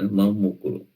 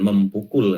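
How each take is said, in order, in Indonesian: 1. Tidak ada bunyi P setelah awalan 'mem'. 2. Bunyi P mengikuti awalan 'mem'.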